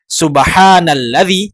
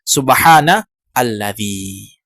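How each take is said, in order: First: The words run together with no glottal stop. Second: Alladzi starts fresh with its own glottal stop. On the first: The speaker calls it right. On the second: The speaker calls it wrong.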